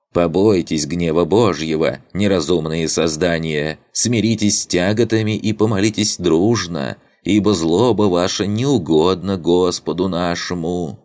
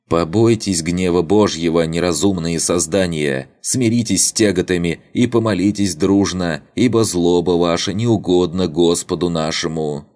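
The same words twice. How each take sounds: First: Unctuous preacher voice, higher and sugary; sanctimonious sermon, syrupy and pitched up; honeyed voice. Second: Lightly voiced unctuous preacher, a bit higher; honeyed voice. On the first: (елейный голос святоши) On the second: (елейный голосок святоши) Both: A narrator's reading. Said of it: "столь неправдоподобно елейным голоском".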